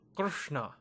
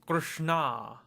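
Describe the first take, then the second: First: The final vowel is short. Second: The final vowel is long. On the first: It names a male deity. "K R S N A" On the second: It names a woman. "make the last A a long A"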